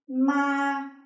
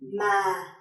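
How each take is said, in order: First: The pitch stays high and level. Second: The pitch starts low and falls. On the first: "a high and flat tone" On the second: "a low falling tone"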